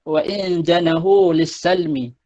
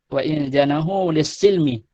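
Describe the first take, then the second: First: The last word has an 'a' vowel after S. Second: The last word has an 'i' vowel after S.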